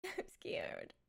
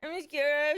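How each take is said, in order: First: Hushed, much softer whisper of I'm scared. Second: Said in the usual way. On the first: Acted. Streamer to chat, whispering her fear of the Direct. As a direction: breathe it out like a frightened secret.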